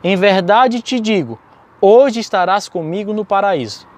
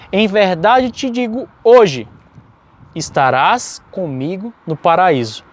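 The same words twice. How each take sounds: First: The pause comes before the word 'hoje'. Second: The pause comes after the word 'hoje'.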